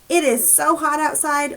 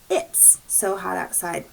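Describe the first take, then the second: First: It and is are said as two words. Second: It is is shortened into one syllable. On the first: "What do you think it's is short for? It is"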